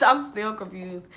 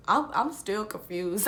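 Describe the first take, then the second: First: Little laugh, then confused repeat. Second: Said in the usual way. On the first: Real, not acted.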